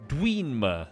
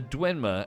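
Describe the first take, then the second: First: The first vowel is a long ee sound. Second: The first vowel is a short e sound. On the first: The speaker calls it wrong. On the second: The speaker calls it right.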